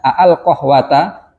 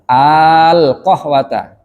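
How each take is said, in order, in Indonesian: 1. Dua bunyi a terpisah dengan hentian di antaranya. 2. Satu bunyi a yang dipanjangkan tanpa hentian. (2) "ketemu dua hamzah jadi satu. Kasih bendera"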